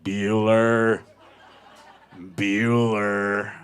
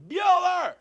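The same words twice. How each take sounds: First: Low, loud, drawn-out monotone; deadpan crowd echo. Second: Loud, very high-pitched holler; calling the dog. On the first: Everyone at the dog park answers the owner, low monotone drone. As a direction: drone the name low and long. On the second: Owner leaving the dog park calls his dog, high shout. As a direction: yell the dog's name across the park. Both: Retold or imitated.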